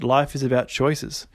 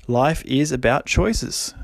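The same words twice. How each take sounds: First: Said in the usual way. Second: Choices drawn out slowly, ending on a rise; slow, let it sink in. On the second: Shown as a demonstration. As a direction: savour each word of it slowly. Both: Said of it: "just let that sink in".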